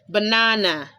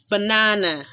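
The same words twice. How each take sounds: Both takes have the same delivery.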